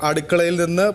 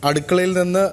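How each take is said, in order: Both takes have the same delivery.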